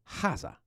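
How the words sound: The word begins with a breathy h sound.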